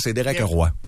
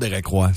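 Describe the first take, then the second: First: Roy is said with a French sound. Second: Roy is said with an English sound. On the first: This is the name's real pronunciation. The speaker calls it right. "Son vrai nom, c'est Derek Roy. Comme Patrick Roy" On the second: This is not the name's real pronunciation. The speaker calls it wrong. "c'est même pas son vrai nom"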